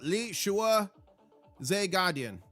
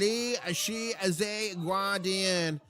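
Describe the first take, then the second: First: The second syllable sounds like 'shua'. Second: The second syllable does not sound like 'shua'. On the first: The speaker calls it right. "It's like Li Shua" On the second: The speaker calls it wrong. "I am working on getting the pronunciation correct"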